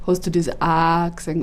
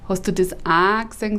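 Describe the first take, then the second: First: „Hast du das A gesehen?“ said from low in the throat, broad Bavarian; sit the sound down in the throat on „Hast du das A gesehen?“. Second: Said up in the nose, nasal Bavarian; nasal Regensburg way. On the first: Comedian demoing how the typical Bavarian says it, from the throat. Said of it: "unten am Hals". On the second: Comedian demoing the nasal Regensburg dialect, said through the nose. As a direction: put the vowels up into the nose on „Hast du das A gesehen?“. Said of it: "sagen wir oben quasi an der Nase". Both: Shown as a demonstration.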